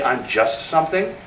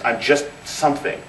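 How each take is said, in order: First: Small self-diminishing voice. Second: Said in the usual way. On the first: Retold or imitated. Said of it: "every time you say". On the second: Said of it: "people who will say".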